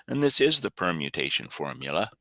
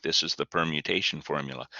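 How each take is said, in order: First: "is" stressed, conceding the point. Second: Said in the usual way. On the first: Shown as a demonstration. Teacher agreeing with the student's objection, stress on "is". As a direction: lean on "is" to agree, ending on a rise. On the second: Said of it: "You're thinking".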